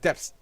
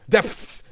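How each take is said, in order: First: The th sound near the end is dropped. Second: The th sound near the end is clear. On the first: The speaker calls it wrong. "you're not pronouncing the word, you're saying like depths" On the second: The speaker calls it right. "There's a T H. That's what I'm saying"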